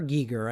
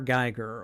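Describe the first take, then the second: First: The first syllable sounds like 'gee'. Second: The first syllable sounds like 'guy'. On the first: "I think is the proper pronunciation" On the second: "in my head, it's H R. Uh, H R. Geiger"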